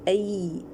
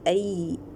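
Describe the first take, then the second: The two takes are said the same way.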